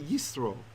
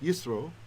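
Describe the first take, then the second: First: The middle consonant is an s sound. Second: The same.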